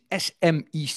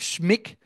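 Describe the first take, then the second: First: The name is spelled out letter by letter. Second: The name is said as a single word. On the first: This is the formal abbreviation. "De afkorting is SMIC" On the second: This is how people commonly say it. "In de volksmond wordt dat dan vaak SMIC"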